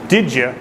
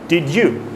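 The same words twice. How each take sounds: First: The two words are blended into one sound. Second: The two words are said clearly apart. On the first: The speaker calls it right. "Did you instead of did you" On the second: The speaker calls it wrong. "instead of did you"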